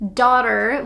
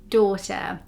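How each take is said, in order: First: An open, wide American vowel. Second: A closed, narrow British vowel.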